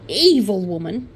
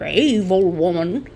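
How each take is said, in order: First: It is said in the speaker's ordinary accent. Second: It is said in a broad Australian politician accent.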